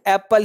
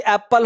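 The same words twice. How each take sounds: First: एप्पल with one short P, like "apl"; correct single P. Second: एप्पल with a held double P; wrong doubled P. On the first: Shown as a demonstration. Teacher gives the right sound, एप्पल with single P. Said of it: "इसका sound एप्पल ही होगा". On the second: Retold or imitated. Teacher shows the wrong sound, एप्पल with doubled P. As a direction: split एप्पल as ap-pal, both Ps sounded. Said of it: "एक गलत sound है".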